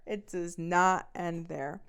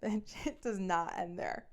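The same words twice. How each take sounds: First: "not" rising, the whole line louder and very slow; stress on not. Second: Slow, drawn out with a laugh; teasing emphasis. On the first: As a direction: hammer "not" with a rise, very slowly. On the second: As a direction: savour every word, slowly. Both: Shown as a demonstration. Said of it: "'cause it doesn't end there".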